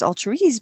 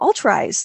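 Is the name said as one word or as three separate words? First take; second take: one word; three words. First: The name is said as one blended word. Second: The name is said as three separate words. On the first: The name suggests altruism made easy. "some people, when they first see it, pronounce it as altruese" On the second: The name plays on people having true eyes. "So I went, ooh, All True Eyes"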